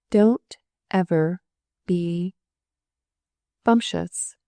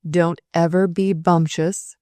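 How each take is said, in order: First: Slow, halting, each word set apart with a doubting lift; jerky questioning read. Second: Slow, rising, puzzled stress on ever; perplexed question. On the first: Superintendent reading the scrawled motto aloud, jerky and incredulous. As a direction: read it out jerkily, word by word, unsure. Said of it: "she read forth jerkily with a questioning, incredulous sort of emphasis". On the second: Surgeon puzzling over the motto through his glasses, perplexed. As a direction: repeat it back baffled, leaning on ever. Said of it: "squinted the senior surgeon perplexedly".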